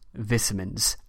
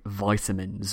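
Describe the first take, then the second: First: It is said with a British pronunciation. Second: It is said with an American pronunciation.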